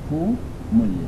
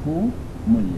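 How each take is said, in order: First: Hum is linked with a u vowel. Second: Hum is linked with a u vowel.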